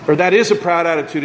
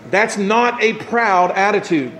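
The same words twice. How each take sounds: First: Corrective push on "is"; stress on is. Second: Slow, with "not" leaned on hard; stress on not. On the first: Pastor corrects his slip by stressing "is". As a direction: land firmly on "is" as the fix. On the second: Pastor slowly stresses "not" before correcting himself. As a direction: slowly hit the word "not". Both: Shown as a demonstration.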